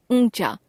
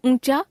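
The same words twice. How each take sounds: First: ऊंचा with the pitch falling; corrected form, falling. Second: ऊंचा higher, rising; ऊंचा left hanging on a rise; error example, rising. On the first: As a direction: close off ऊंचा with a fall. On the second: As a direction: lift the end of ऊंचा. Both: Shown as a demonstration. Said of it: "अनुस्वार और अनुनासिक संबंधी अशुद्धियां".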